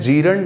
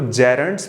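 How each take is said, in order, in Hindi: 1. पहले अक्षर में लंबा 'jee' स्वर है। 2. पहले अक्षर में छोटा 'jeh' स्वर है। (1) "जीरंड नहीं पढ़ा जाता" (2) "वेरी फर्स्ट थिंग इनको जेरेंट्स पढ़ते हैं"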